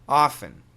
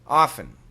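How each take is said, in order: First: Relaxed, everyday American accent. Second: The same.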